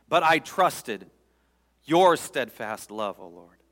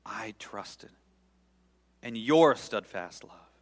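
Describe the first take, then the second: First: Slow, loud trust. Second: Slow, swelling trust. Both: Shown as a demonstration. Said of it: "I'm gonna read it slowly".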